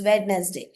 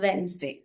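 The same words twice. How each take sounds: First: Every written letter is sounded aloud. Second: One written letter is left silent. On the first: The speaker calls it wrong. "we used to say it's" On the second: The speaker calls it right. "it is pronounced as"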